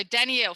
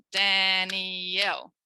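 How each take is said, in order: First: Said in the usual way. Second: DANIELLE drawn out slowly in three separate syllables; clapped out syllables. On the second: Shown as a demonstration. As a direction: say Danielle very slowly, beat by beat, as Dan-i-elle. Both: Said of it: "first thing I'm gonna do is clap it".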